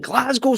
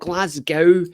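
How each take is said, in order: First: Glasgow is said with a local Scottish pronunciation. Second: Glasgow is said with an American pronunciation.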